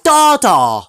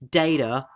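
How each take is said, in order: First: It is said in an Australian accent. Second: It is said in an American accent. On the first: "Australians data" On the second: "Americans data"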